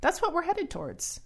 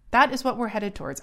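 First: "what" pitched high and stressed, falling at the end. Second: "That" punched and "is" spelled out, louder and fast; stress on that. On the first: Warning listeners where society is going, stress on "what". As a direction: lean on "what" in "That's what we're headed towards", high then falling. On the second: Repeating the warning to listeners, louder with "That is" spelled out. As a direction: hit "That" and give "is" its full weight, louder and quicker. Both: Shown as a demonstration.

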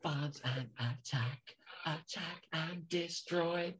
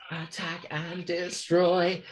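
First: Slow whispered alien drone; breathy slow mechanical chant; alien robot voice. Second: Very slow mechanical alien voice. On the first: Imitating Mechanoid voice. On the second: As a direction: drag it out like a machine. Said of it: "different kind of alien-y voice". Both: Retold or imitated.

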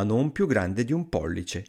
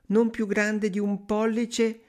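First: Said in the usual way. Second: High, slow yearning woman's voice; wistful sighing wife. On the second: A narrator's reading. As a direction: draw it out high, full of longing. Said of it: "rispose la donna sospirando". (moglie sospirosa, acuta e lenta)

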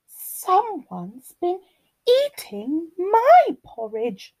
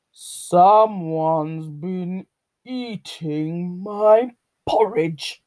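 First: High, slow lilting mother bear; Mummy Bear. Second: Big, slow bear growl; drawn-out, growly papa bear complaint; growling Daddy Bear. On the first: Mummy Bear finds her porridge eaten, high lilting complaint. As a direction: draw it out high as a put-out mama bear. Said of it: "rumbled Mummy's bear". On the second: Daddy Bear finds his porridge eaten, growling. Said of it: "growled Daddy Bear". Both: A narrator's reading.

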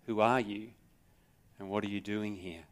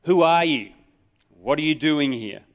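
First: Softer, musing questions; soft reflective repeat. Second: Sharp, loud, higher soldier's challenge; barking soldier. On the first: Acted. Preacher quietly repeats the soldier's questions to the congregation, softer and musing. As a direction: let the questions sink in quietly. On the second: A narrator's reading. Soldier barks at the trespassing rabbi, loud and sharp. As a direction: bark it at the intruder. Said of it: "shattered by the bark".

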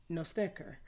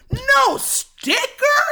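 First: Low, much softer deadpan statement; hushed reveal. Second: Very high, loud, drawn-out question; mimicked outraged contestant. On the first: Real, not acted. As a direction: drop your volume for the bad news. Hushed reveal of the empty cup. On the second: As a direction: shriek it slowly in disbelief to the crowd. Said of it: "she lifts it up under her head and goes".

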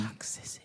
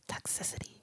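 First: Unvoiced, breathy Toxicity; whispered word. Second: Unvoiced whisper of Toxicity; whispered word. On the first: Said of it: "Why are we whispering the word?". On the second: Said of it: "you gotta whisper it". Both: Shown as a demonstration.

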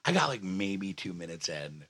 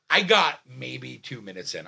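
First: Low, soft restart; toned down after yelling. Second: Raised storytelling voice; yelling. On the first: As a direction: bring it right down, much quieter. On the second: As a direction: keep the voice up, still worked up. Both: Real, not acted. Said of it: "I'm sorry I'm yelling".

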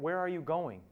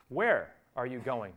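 First: Said in the usual way. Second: "Where" hit hard and drawn out, slow; stress on WHERE. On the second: Shown as a demonstration. Preacher showing the congregation where the weight goes, stress on "Where". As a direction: lean on "Where", then let the rest fall. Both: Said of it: "the emphasis for me is where".

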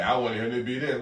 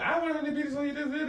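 First: Said in the usual way. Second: High put-on parent voice, half joking; mock parent. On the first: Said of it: "repeats the line in a voice". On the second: Friend mimicking a parent who decides for his son, high mock voice. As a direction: play the bossy parent in a squeaky mocking voice.

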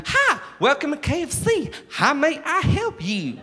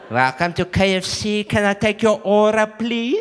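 First: Exaggerated American fast-food hospitality; American KFC server. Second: Put-on Cape Flats accent, rising to the end; Cape Flats server. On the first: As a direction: sing out a Kentucky-style American welcome. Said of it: "expecting it to be like Kentucky Fried Chicken". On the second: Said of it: "when they go to K F C on the Cape Flats".

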